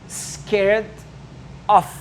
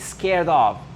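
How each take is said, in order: First: The word 'of' ends with an f sound. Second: The word 'of' ends with a v sound. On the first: The speaker calls it wrong. "souvent, les francophones, ils vont dire scared of" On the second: The speaker calls it right. "Non, c'est scared of"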